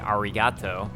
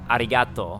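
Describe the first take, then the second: First: The r is a strong English r sound. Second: The r sounds halfway between r and l. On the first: The speaker sounds like a foreigner. The speaker calls it wrong. "that's really, really, really foreigner sounding" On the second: The speaker sounds authentically Japanese. The speaker calls it right. "like the Japanese way to pronounce it"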